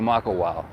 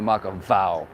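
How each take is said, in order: First: The consonant before the last vowel is a w. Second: The consonant before the last vowel is a v. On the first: The speaker calls it right. "You still say Makawao" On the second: The speaker calls it wrong. "You don't say Makavow"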